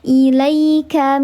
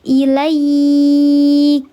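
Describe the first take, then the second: First: The middle vowel is short and carried on smoothly. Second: The middle vowel is drawn out before stopping. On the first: The reading continues without stopping. "di tengah kalimat namanya harfulin, dilembutkan saja" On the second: The reader stops at this word. "kalau ayah bunda wakafkan di sini, maka dibacanya panjang"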